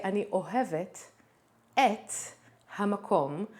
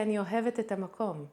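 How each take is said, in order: First: אני אוהבת, pause, את, pause, המקום, each word set apart. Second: אני אוהבת את המקום run together fast as one flow; fast connected speech. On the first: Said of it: "but when I speak, I just say". (אני אוהבת את המקום broken into careful separate words) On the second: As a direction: rattle it off like natural talk. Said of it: "when I speak, I just say". (fast, with the words of אני אוהבת את המקום linked) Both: Shown as a demonstration.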